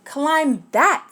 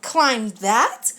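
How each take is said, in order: First: Bug points up and orders, louder; lightly voiced bossy bug; brisk order from the bug; bossy command. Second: Incredulous elephant question; lightly voiced dismayed Horton; shocked questioning echo; gulping disbelief. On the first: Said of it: "said the bug". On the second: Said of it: "Horton gulped". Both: A narrator's reading.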